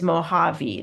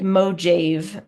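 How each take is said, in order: First: The middle consonant is an H sound. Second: The middle consonant is a J sound. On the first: The speaker calls it right. "the way you say it is Mojave. That's how you say it in Spanish" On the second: The speaker calls it wrong. "it looks like Mojave"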